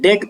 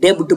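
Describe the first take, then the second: First: The b sound is silent. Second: The b sound is pronounced. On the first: The speaker calls it right. "इसको डेट पढ़ते हैं" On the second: The speaker calls it wrong. "डेब्ट मत पढ़िएगा"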